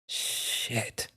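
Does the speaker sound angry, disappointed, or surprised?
disappointed. It sounds disappointed and frustrated. Something let you down. "you're almost disappointed, frustrated in a way"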